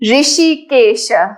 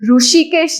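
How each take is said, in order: First: The first syllable sounds like 'ri'. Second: The first syllable sounds like 'ru'. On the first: This is the careful Sanskrit pronunciation. The speaker calls it right. "We will not say R U Ru, but it's a more of Ri" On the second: This is the common regional pronunciation. The speaker calls it wrong. "In Gujarat, most of us say"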